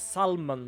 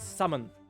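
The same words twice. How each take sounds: First: The L sound is pronounced in the word. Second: The L sound is left out of the word. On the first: The speaker calls it wrong. "I read it as salmon because I see an L" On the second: The speaker calls it right. "but apparently it's salmon"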